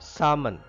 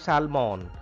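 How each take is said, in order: First: The l sound is silent in the word. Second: The l sound is pronounced in the word. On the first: The speaker calls it right. "L is silent here" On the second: The speaker calls it wrong. "It is not salmon"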